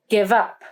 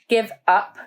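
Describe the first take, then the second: First: The two words are joined without a gap. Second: The two words are separated by a gap. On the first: The speaker calls it right. "we say give up" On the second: The speaker calls it wrong. "We don't say give up"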